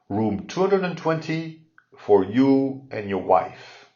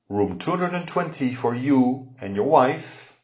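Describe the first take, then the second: First: The sentence is spoken slowly and carefully. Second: The sentence is spoken at a natural pace.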